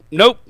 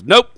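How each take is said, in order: First: The same curt nope again. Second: A flat, curt cop's nope. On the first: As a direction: shut it down flatly. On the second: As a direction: clip it short and final. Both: Retold or imitated. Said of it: "Like that".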